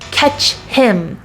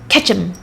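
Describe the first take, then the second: First: The h sound of 'him' is pronounced. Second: The h sound of 'him' is dropped. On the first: "instead of saying like catch him" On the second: "you can say catch him"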